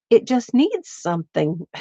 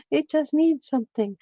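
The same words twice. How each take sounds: First: Said in the usual way. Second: Sing-song higher echo; playful higher self-echo. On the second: Real, not acted. Crafter repeats the line playfully.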